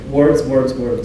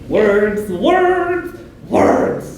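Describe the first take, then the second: First: Each word sounds the same, flat delivery. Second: The words are delivered in a goofy, playful way. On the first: "You don't want to say that" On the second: "does it really goofy"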